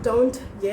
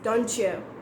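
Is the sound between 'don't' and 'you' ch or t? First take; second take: t; ch. First: The t and y are said separately. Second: The t and y merge into a ch sound. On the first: The speaker calls it wrong. "it's not don't you" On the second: The speaker calls it right. "we have that C H sound"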